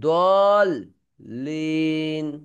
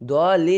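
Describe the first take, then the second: First: The l sound is doubled and held. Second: The l sound is single and short. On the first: The speaker calls it right. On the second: The speaker calls it wrong.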